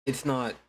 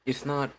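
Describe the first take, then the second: No difference in how they are said.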